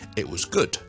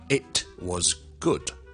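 First: The t in 'it' becomes a glottal stop. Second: The t in 'it' is fully pronounced. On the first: The speaker calls it right. "我哋未必會讀出嚟嘅，所以我哋就咁講" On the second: The speaker calls it wrong. "我唔會讀成it was good"

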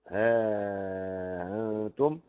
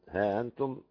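First: The vowel after 'ha' is held long. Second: The vowel after 'ha' is held short. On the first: "ومد" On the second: "مع قصر"

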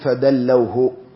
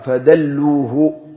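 First: It is said fadallawhu, with 'aw' after the l. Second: It is said fadalluhu, with 'u' after the l. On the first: They lowered him down. The speaker calls it wrong. "لا تقل فدلوه، لأنه دلوه من ال ثم دنا فتدلى" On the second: They showed him the way. The speaker calls it right. "لا، فدلوه، أي دلوا النبي صلى الله عليه وسلم على قبرها"

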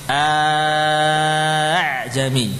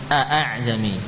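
First: The second hamzah becomes a long drawn vowel. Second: The second hamzah is a full glottal stop. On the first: "diganti utuh, diganti dengan alif" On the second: "Mungkin sebagian qurra membaca a'ajami"

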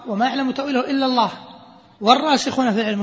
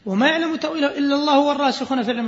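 First: There is a pause after the word Allah. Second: There is no pause after the word Allah. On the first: Only God knows its true outcome; the learned begin a new statement. "استئنافية ابتدائية" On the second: God and the firmly learned both know its interpretation. "على قراءة الوصل"

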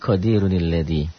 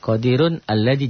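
First: The words are joined with a linking 'ni' sound. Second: The words are said apart without a linking sound. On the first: "jadi qadirunil ladhi" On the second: "itu qadirun alladhi"

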